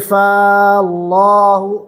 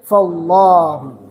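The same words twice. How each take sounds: First: The vowel after the first sound is held long. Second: The vowel after the first sound is kept short. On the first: The speaker calls it wrong. "So we don't say Fallahu" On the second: The speaker calls it right. "So we don't prolong"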